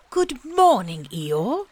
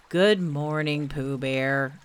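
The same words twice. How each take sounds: First: Higher, louder friendly bear greeting; cheerful Pooh. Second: Low, mournful donkey greeting; gloomy Eeyore. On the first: Pooh coming out of the bracken to greet Eeyore, cheerful and high. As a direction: call out a happy hello to a friend. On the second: Eeyore answering Pooh's hello, gloomy and low. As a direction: greet him as if nothing could be good. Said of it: "said Eeyore gloomily". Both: A narrator's reading.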